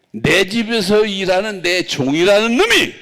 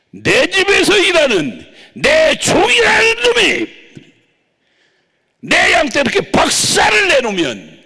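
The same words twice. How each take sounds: First: Said in the usual way. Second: Much higher, much louder shouted rebuke; the Lord scolding his servant, shouting. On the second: Retold or imitated. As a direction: thunder it down at the servant. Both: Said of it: "주님이 야단치게".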